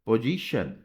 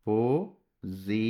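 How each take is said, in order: First: Said in the usual way. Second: Drawn out slowly. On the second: Shown as a demonstration. Teacher writing position on the board, drawn out slowly. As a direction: stretch position out slowly, ending on a rise. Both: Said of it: "अब position तो ऐसे पढ़ा था".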